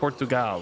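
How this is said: It is said with a guessed Portuguese pronunciation. "I have a feeling you guys say it Portugal or something like that"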